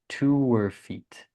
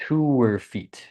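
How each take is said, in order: First: The H is dropped, linking 'to' and 'her'. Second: The H is dropped, linking 'to' and 'her'.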